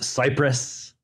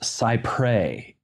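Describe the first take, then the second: First: It sounds like the word Cyprus. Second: It does not sound like the word Cyprus. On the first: The speaker calls it wrong. "it is not pronounced Cyprus" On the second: The speaker calls it right. "That is how Americans pronounce it"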